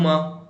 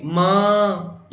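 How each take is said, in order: First: Said in the usual way. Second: माँ held long and slow; drawn-out call. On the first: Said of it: "इसको बोलने में कम समय लगा है". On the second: Shown as a demonstration. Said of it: "इसको बोलने में समय लग रहा है". (माँ को लंबा खींचकर पुकारना)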